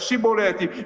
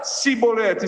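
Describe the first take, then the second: First: The word begins with a 'sh' sound. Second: The word begins with an 's' sound. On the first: The speaker belongs to the group. "eles vão conseguir falar chibolete" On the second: The speaker is an outsider enemy. "eles vão falar cibolete"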